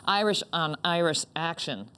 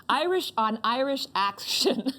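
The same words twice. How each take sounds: First: Said in the usual way. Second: Irish on Irish action said slowly, laughing; struggling to get "Irish on Irish action" out, drawn out; a laughing second try at "Irish on Irish action"; slow careful retry. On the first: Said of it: "That's really hard to say". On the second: Shown as a demonstration. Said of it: "Nope, can't say it".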